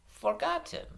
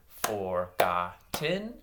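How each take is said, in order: First: FORGOTTEN run together as one smooth word, higher; blended smoothly. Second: FORGOTTEN broken into slow, separate syllables. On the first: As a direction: say "Forgotten" joined up, no gaps. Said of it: "blend them ... a little bit smoother". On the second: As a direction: clap out "forgotten", a gap after each syllable. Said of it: "I'm gonna say". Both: Shown as a demonstration.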